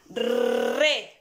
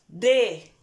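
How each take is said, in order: First: The r is a strong rolled trill. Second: The r is a single soft tap. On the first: "va a sonar más fuerte" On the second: "la que es suave, sonaría DE"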